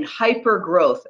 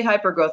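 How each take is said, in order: First: "hyper growth" drawn out slowly, leaning on "hyper"; slow it down and lean hard on "hyper growth"; weighty, slowed "hyper growth" to impress the audience; emphatic hyper growth. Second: Said in the usual way. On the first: Shown as a demonstration. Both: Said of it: "And when I say hyper growth".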